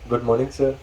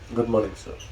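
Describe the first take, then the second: First: It is said lively and naturally. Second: It is said flat, like a robot.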